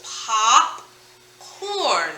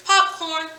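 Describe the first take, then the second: First: POP, long pause, CORN, both stretched; slow, separated pop-corn; split syllables. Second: Said in the usual way. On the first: Shown as a demonstration. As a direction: draw popcorn out in two halves. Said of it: "so there's two syllables".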